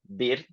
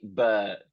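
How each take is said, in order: First: It is said with an Italian-style pronunciation. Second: It is said with a British uh vowel. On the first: The speaker calls it wrong. "the most common pronunciation for Italian students would be bird" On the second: The speaker calls it right. "We actually say bird, so it's more of a uh sound"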